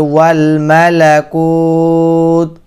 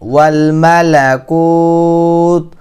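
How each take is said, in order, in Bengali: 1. এখানে থামে, একটি লম্বা টানা স্বরধ্বনি দিয়ে। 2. এখানে থামে, একটি লম্বা টানা স্বরধ্বনি দিয়ে।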